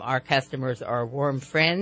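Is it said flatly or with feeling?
flatly. It is said flatly, without much feeling.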